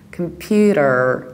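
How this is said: The T is flapped with a strong final R.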